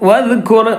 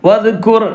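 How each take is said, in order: The two takes are said the same way.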